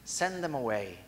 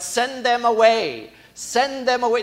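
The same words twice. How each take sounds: First: Soft, low, reflective repeat; a hushed echo of the dismissal; quiet echo. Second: A raised, brushing-off call; loud dismissal. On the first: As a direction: let the phrase fall away quietly. Repeating the disciples' phrase. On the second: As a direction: shout them off, pushing people away. Disciples dismissing the crowd. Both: Acted.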